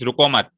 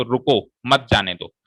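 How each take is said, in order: First: रुको मत run together, pause after मत; रुको मत as one unit, stopping after मत; comma after मत. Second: रुको, pause, then मत जाने दो together; slower, with a clear break between रुको and मत; comma after रुको. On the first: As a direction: join रुको to मत as one command, then break. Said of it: "अगर मैं कॉमा यहाँ लगाऊं". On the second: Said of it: "comma को यहाँ लगा दूं". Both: Shown as a demonstration.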